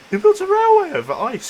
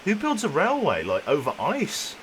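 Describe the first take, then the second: First: High, loud disbelieving cry; incredulous shout. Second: Said in the usual way. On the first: Real, not acted. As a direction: yell it in total disbelief. Repeats the question far louder.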